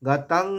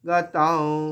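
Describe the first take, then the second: First: The word ends with a closed m-like sound. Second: The word ends with an open nasalized vowel. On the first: The speaker calls it wrong. "গাতাং এরকম বলবো না" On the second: The speaker calls it right. "এখানে ওয়াও বলবো"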